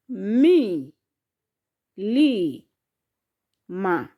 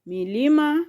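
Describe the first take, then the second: First: "mi, li, ma" drawn out with pauses between; syllable by syllable. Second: Said in the usual way. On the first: Shown as a demonstration. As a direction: teach it in pieces: "mi", "li", "ma". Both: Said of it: "How many are those?".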